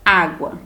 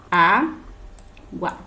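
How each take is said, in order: First: Said in the usual way. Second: "Água" in two separate syllables, Á, pause, gua; split into syllables. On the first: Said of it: "como é a separação dela". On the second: Shown as a demonstration. Teacher showing pupils how to divide a word, "Água" split as Á - gua. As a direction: say "Água" slowly syllable by syllable, with a clear break after Á. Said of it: "eu separei aqui".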